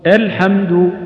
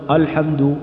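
First: الحمد opened on a thin, light "a"; light hamza. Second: الحمد opened on a thick, back "a"; heavy hamza. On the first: Quran teacher modelling الحمد for learners, light hamza. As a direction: say الحمد with the first vowel fronted and light. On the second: Quran teacher showing learners the mistake in الحمد, heavy hamza. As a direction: say الحمد with a heavy, dark first vowel. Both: Shown as a demonstration. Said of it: "احذر من التفخيم".

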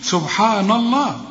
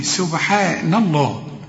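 First: سبحان الله higher with a dark NA; wrong heavy noon. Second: سبحان الله with thin NE, heavy Allah; slow سبحان الله, fronted vowels until الله; light noon. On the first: Teacher shows the mistake, heavy سبحان الله. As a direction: mispronounce سبحان الله with thick ن and vowels. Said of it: "ما نقولش سبحان الله". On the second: Teacher corrects the noon, light سبحان الله. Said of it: "النون كلها مرققة". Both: Shown as a demonstration.

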